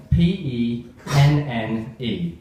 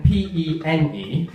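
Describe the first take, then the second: First: P E N N E letter by letter, slowly; spelled out slowly. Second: P E N E letter by letter, slow and deliberate; spelled out slowly. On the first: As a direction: spell each letter of P E N N E carefully. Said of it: "It's got two N's". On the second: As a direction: spell out P E N E with one N. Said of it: "okay, one N". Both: Shown as a demonstration.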